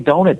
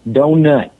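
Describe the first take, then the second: First: The word is said plainly, without extra emphasis. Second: The word is said with heavy, drawn-out emphasis. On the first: "they don't say donut" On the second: "there's so much emphasis"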